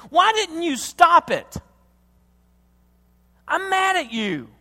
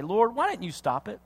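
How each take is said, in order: First: High, loud, drawn-out accusation; acted furious cry to God; angry outburst. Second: Retold anger, held back; restrained anger. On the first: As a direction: let the anger burst out at God. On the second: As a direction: start the accusation under restraint. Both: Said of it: "I get mad and I say".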